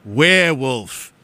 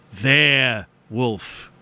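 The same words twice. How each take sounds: First: "werewolf" drawn out slowly as "where wolf"; punning "werewolf" question. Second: "their wolf" as two separate, drawn-out words; punning "their wolf" answer. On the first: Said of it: "the question is". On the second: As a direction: say "their", pause, then "wolf". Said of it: "in the form of a question". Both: Shown as a demonstration.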